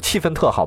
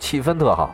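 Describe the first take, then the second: First: The second syllable has a falling tone. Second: The second syllable has a high level tone. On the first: The speaker calls it wrong. "不，你说错了" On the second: The speaker calls it right. "叫气氛特好"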